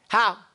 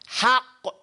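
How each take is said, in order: First: The final qaf is dropped and not heard. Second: The final qaf is held and clearly pronounced. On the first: The speaker calls it wrong. "You'll sound like an Egyptian. You'll say ha" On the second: The speaker calls it right. "how you trap that sound"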